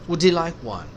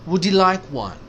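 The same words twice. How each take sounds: No difference in how they are said.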